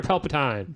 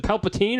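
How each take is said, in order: First: Palpatine with a final "tine", rhyming with fine; ending pronounced tine. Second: Put-on Palpatine with a final "teen", rhyming with seen; ending pronounced teen. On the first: Host checks a villain's name, second option Palpatine ending in "tine". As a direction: say Palpatine as PAL-puh-tyne. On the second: Host checks a villain's name, first option Palpatine ending in "teen". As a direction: say Palpatine as PAL-puh-teen. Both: Shown as a demonstration. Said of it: "is it Palpatine or Palpatine".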